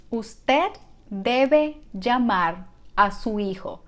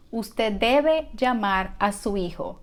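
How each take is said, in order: First: Slow, in separated word groups; slow teaching model. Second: Said in the usual way. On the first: Shown as a demonstration. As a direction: say it slowly for learners to follow. Teacher models the sentence slowly first.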